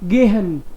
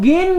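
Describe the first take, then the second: First: An h sound is heard in the middle. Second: No h sound is heard in the middle. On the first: "फिर भी हम इसको है पढ़ेंगे" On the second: "कई लोग इसको गेन भी बोलते हैं"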